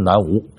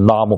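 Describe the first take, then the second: First: The word is said as nánwú. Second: The word is said as nàme. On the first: The speaker calls it wrong. "不是南无" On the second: The speaker calls it right. "是那么"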